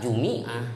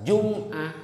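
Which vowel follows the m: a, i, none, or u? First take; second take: i; none. First: The m is followed by an i vowel. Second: The m is followed by no vowel. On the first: "bisa kasrah" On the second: "bisa sukun"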